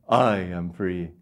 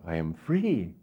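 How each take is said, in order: First: The stress is on the word I. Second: The stress is on the word free.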